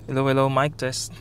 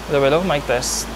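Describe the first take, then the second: First: The voice is recorded inside a car. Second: The voice is recorded outside a car.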